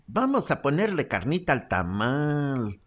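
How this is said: It is said in an exaggerated vulgar Mexican accent.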